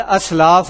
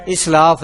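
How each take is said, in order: First: اسلاف said aslaf, opening with a; اسلاف begins with a short a sound, as-laaf; اسلاف with an a vowel at the start; correct pronunciation. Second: اسلاف said islaf, opening with i; اسلاف begins with a short i sound, is-laaf; mispronounced اسلاف with an i vowel at the start; common wrong pronunciation. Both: Shown as a demonstration. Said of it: "اسلاف نہیں ہے".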